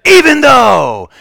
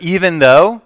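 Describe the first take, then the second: First: High, slow shouted "Even though!"; yell. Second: Said in the usual way. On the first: Retold or imitated. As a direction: blast "Even though!" to startle the kids. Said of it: "but I yelled". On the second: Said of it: "the "even though" there is called".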